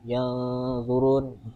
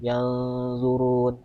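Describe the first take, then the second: Both takes have the same delivery.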